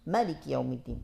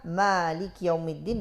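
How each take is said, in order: First: The first vowel of Malik is short. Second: The first vowel of Malik is long.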